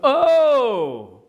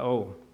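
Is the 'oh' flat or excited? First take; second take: excited; flat. First: It is said with strong excitement. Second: It is said flatly, without feeling.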